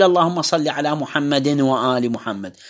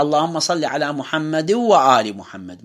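First: محمد said muhammadin, nun voiced before وآل; tanwin pronounced. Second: محمد وآل joined with the tanwin merged into the waw; no nun heard between محمد and وآل; tanwin assimilated. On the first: Teacher showing the wrong reading of the salawat. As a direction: sound the tanwin of محمد clearly. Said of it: "فما أقول". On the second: Teacher showing the right reading of the salawat. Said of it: "لا". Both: Shown as a demonstration.

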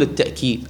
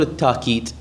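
First: "التأكيد" with a glottal stop after ta; pronounced with hamza. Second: "التاكيد" with a long aa, no glottal stop; smooth long alif in "التاكيد"; hamza turned alif. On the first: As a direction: say "التأكيد" as at-ta'kid. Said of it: "يعني بالهمزة". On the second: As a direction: say "التاكيد" as at-taakid. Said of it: "تقلب الهمزة إلى ألف". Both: Shown as a demonstration.

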